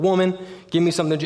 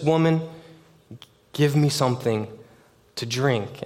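First: It is said in a disrespectful, harsh tone. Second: It is said in a plain, respectful tone.

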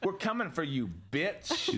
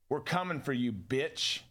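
First: It is said with more sass. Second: It is said with little sass.

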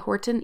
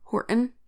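First: The T sound is pronounced clearly and distinctly. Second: The T sound is swallowed and barely heard. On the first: It deliberately avoids the local accent. "I specifically say Horton" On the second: It reflects a local regional accent. "I tend to just say Horton"

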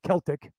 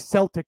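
First: It starts with a hard K sound. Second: It starts with a soft S sound.

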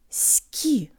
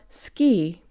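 First: The k sound has lots of air. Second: The k sound has little air. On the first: The speaker calls it right. "Push a lot more air through the ka in Russian" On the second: The speaker calls it wrong. "not ski"

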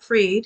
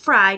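First: The vowel sounds like the one in 'freed'. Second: The vowel sounds like the one in 'fried'. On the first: The speaker calls it wrong. "not Freed" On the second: The speaker calls it right. "it's Fried"

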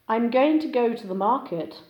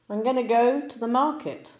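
First: "Going to" is pronounced fully and separately. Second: "Going to" is reduced and linked together.

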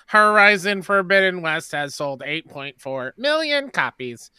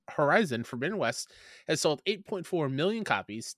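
First: It is said in a put-on robotic voice. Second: It is said in a normal speaking voice.

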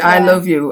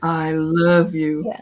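First: It is said without real feeling. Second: It is said with warm, real feeling. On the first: The words are not truly meant. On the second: The words are truly meant.

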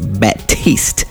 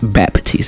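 First: No p sound is heard before the t. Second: A p sound is heard before the t. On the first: The speaker calls it right. "it's Batiste" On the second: The speaker calls it wrong. "everyone adds a P in my last name"

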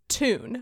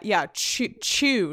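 First: The t is a plain hard t sound. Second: The t is followed by a y sound. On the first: This is how the speaker says it today. "But I pronounce it just tune. More with a hard T" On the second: This is how an older English speaker would say it. "whereas he would have pronounced it more with that"

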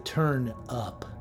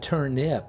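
First: It is said like the phrase turn it up. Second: It is said as the vegetable name. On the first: It means turn the volume up. The speaker calls it right. "but the turnip. Like, turn it up" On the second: It names the vegetable. The speaker calls it wrong. "not the turnip, you know, that little vegetable"

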